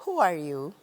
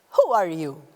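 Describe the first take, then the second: First: Gentle who are you, voice kept down. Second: Loud, harsh question; demanding who are you loudly. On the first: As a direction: ask it kindly, at normal volume. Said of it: "Or you can say". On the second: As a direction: bark the question at them. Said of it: "there is a difference between saying". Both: Shown as a demonstration.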